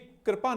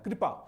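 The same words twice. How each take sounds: First: The first syllable has no clear 'ri' sound. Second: The first syllable has a clear 'ri' sound. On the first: The speaker calls it wrong. "तो ये कृपा नहीं है" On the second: The speaker calls it right. "री का प्रयोग होता है"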